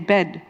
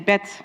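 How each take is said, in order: First: The final d is voiced. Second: The final sound is devoiced, like a t.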